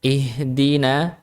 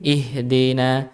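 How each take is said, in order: First: "ihdina" with a pure "dii"; clear kasrah i. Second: "ihdina" said as "ihdeena" with an e-like vowel; tilted dal vowel. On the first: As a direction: say "ihdina" with a sharp ee after d. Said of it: "Harusnya bacanya ihdina". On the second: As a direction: slide the i after d in "ihdina" toward "dei". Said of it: "mengimalahkan huruf dal". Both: Shown as a demonstration.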